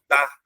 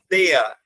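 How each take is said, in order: First: The vowels merge into one sound. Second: The two vowels are pronounced separately. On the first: The speaker calls it right. "eu falo da" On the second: The speaker calls it wrong. "eu não falo dea"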